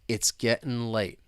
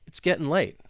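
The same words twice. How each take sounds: First: It is spoken slowly. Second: It is spoken at a moderate speed. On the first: "let's say it slowly to begin with" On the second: "let's speed it up a little bit"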